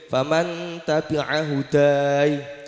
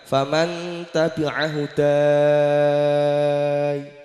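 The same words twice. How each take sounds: First: The final vowel is held for two counts. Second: The final vowel is held for six counts. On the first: "dua harokat" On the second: "Boleh yang enam"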